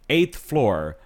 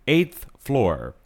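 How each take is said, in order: The two takes are said the same way.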